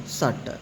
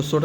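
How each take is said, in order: First: सट with a short 'uh' vowel; correct reading of shut. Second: सुट with a rounded short vowel; wrong reading of shut. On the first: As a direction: say सट short and unrounded. (सही उच्चारण, सट में छोटा 'अ') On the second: (गलत उच्चारण, सुट में गोल स्वर) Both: Shown as a demonstration. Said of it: "इसको सुट नहीं पढ़ेंगे".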